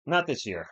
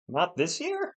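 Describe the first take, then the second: First: "Not this year." with a firm falling end on "not"; answering tune. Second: "not this year?" asked with a rising end; questioning tune. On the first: Streamer answering his own question with a firm fall. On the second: Streamer echoing a chat question with a rising tune. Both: Shown as a demonstration.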